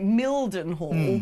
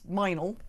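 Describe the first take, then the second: First: Every spelled syllable of the name is said. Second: The name is squeezed into two short syllables. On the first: "called like" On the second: "but that's"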